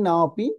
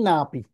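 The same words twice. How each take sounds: First: না অপি as two separate words; broken-up pronunciation. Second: না পি run together as one word; joined pronunciation. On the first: Teacher showing the word-by-word way, না অপি split apart. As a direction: split না from অপি, keeping both vowels. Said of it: "যদি ভেঙে ভেঙে বলি". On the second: Teacher showing the combined way, না পি joined up. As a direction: merge it into না পি with one long a. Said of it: "আর যদি একত্রে বলি". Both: Shown as a demonstration.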